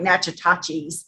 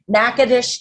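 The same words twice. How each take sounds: First: It is read the way the spelling looks. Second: It is said with the local pronunciation. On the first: This is how the written name seems to read. The speaker calls it wrong. "it looks like" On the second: This is how the town's name is really said. The speaker calls it right. "that's how you say it"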